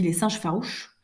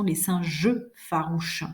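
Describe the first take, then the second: First: Some unstressed e syllables are swallowed. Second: Every syllable is fully pronounced. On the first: The speaker calls it wrong. "j'ai mangé les syllabes" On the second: The speaker calls it right. "Je ne dois pas manger mes mots comme ça"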